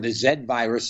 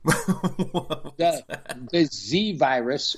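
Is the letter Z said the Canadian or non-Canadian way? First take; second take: Canadian; non-Canadian. First: The letter Z is said the Canadian way. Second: The letter Z is said the non-Canadian way.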